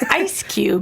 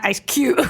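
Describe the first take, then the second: First: The stress falls on the first word. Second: The stress falls on the second word. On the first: The speaker calls it right. "it's [name]" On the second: The speaker calls it wrong. "not Ice Cube. ... You're on the cube part too hard"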